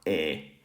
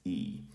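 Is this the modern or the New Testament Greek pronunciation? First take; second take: New Testament; modern. First: The vowel has its older New Testament Greek sound. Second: The vowel has its modern Greek sound. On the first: "in um, New Testament Greek, it's uh" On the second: "and in modern Greek, it's"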